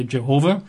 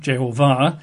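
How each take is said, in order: First: Jehovah stressed on HO, with a weak last syllable; everyday English je-HO-vah; English pronunciation. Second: Jehovah landing on a stressed final VAH; Hebrew-style je-ho-VAH; emphasis at the end. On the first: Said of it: "English we say Jehovah". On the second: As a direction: push the weight onto the last syllable of Jehovah. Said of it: "the emphasis at the end". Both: Shown as a demonstration.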